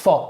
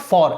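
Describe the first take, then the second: First: The R sound at the end is silent. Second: The R sound at the end is pronounced. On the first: The speaker calls it right. "R को silent रखेंगे ना" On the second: The speaker calls it wrong. "It's not for"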